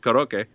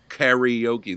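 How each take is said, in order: First: The word is said with Japanese-style vowels. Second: The word is said with an 'ee' sound in the middle. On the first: "the Japanese pronunciation is karaoke" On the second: "but not karaoke. There's no E in the middle of that word"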